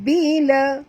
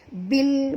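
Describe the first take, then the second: First: A vowel is added after the l. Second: The word ends sharply on the l. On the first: The speaker calls it wrong. "bukan bila" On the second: The speaker calls it right. "matikan terus bunyi lam ini"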